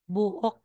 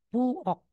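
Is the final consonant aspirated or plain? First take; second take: aspirated; plain. First: The final consonant is said with a puff of air. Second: The final consonant is said plainly without air. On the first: The speaker calls it wrong. "aspirated yan. Di ba may ka" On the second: The speaker calls it right. "masisimplify into regular sound lang po"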